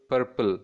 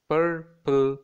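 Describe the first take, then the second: First: Said in the usual way. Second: "Purple" as pur, short gap, pull; teacher sounding out both halves of "Purple"; syllable by syllable. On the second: Shown as a demonstration. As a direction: break "Purple" into two even beats. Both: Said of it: "has two syllables".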